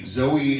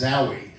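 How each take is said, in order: First: The surname is pronounced like Zoe. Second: The surname is pronounced like Zowie. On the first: The speaker calls it wrong. "it's supposed to be pronounced Zowie" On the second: The speaker calls it right. "it's supposed to be pronounced Zowie"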